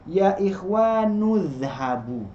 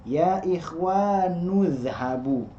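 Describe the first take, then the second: The two takes are said the same way.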